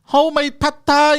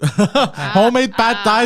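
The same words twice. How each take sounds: First: Mock Asian accent, much higher and louder. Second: Laughing through a mock Asian accent, louder and slow; hammy Asian accent, cracking up. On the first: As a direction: put on a hammy Asian accent. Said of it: "I'm gonna do it with the Asian accent too". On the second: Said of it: "I just wanted an excuse to use it".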